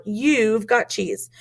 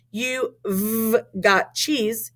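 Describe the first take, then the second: First: "You've" run together as one word; joined contraction. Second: "v" held separately after "You"; contraction pulled apart. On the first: Teacher showing the normal contraction, "You've" joined up. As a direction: say "You've" as a single syllable. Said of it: "You say". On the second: Teacher showing a contraction wrongly said, "You v" split apart. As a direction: slowly split "You v" into two sounds. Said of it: "we don't say them apart". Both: Shown as a demonstration.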